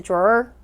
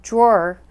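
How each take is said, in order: First: "drawer" with the accent pushed onto the last syllable, rising; misplaced stress. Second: Said in the usual way. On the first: Shown as a demonstration. Teacher showing a hard to understand drawer, misplaced stress. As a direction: lift the end of "drawer" as if stressed there. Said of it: "if I said drawer". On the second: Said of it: "putting the accent on the right syllable".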